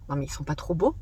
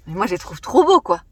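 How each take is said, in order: First: Low, soft voice of a doubter; dismissive aside. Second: Said in the usual way. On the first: Pretend. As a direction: mutter it like an imagined critic. Imagined viewer dismissing the masks.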